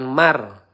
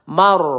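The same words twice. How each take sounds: First: The r is pronounced light and thin. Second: The r is pronounced heavy and full. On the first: The speaker calls it wrong. "bukan mar hati-hati ya dengan uh, ro tipis" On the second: The speaker calls it right. "kita baca tebal mar seperti itu ya"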